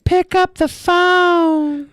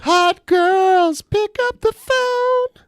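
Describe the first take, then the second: First: High, very slow breathy-ad voice pastiche; drawn-out, high come-on like an old hotline commercial; sultry phone sex ad. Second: Very high, very slow mock hotline voice; phone sex commercial. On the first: Retold or imitated. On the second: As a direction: stretch it out sky-high like a cheesy hotline ad. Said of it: "that phone sex commercial".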